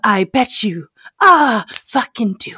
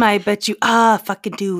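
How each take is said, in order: First: It is said in a Night Man impression. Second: It is said in the speaker's normal voice.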